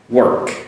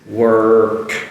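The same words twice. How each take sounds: First: The word is said quickly at normal speed. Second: The word is said slowly and drawn out. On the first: "but I say it quickly, but I still make that R" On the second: "I'll do it slowly if you can see this"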